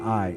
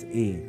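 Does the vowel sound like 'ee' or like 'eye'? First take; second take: eye; ee. First: The vowel sounds like 'eye'. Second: The vowel sounds like 'ee'. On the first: The speaker calls it wrong. "not I" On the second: The speaker calls it right. "you actually say it like E"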